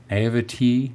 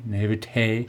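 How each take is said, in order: First: Naivety said with a plain "tee" ending; trying a pronunciation. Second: Naivete said with a French-style "tay" ending; trying a pronunciation. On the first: Host unsure how to pronounce it, trying Naivety with a "tee" ending. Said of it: "how do you pronounce that?". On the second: Host unsure where the accent goes, trying naivete with a "tay" ending. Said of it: "I don't know where the accent goes". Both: Shown as a demonstration.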